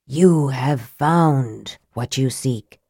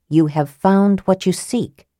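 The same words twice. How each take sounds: First: Low, slow wraith voice on "You have found what you seek."; dry, soft wraith voice. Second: Said in the usual way. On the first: A narrator's reading. Wraith tells Raistlin his search is over, low and slow. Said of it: "The voice was dry as bone and soft as ash". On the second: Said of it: "He was thinking of the wraith's words".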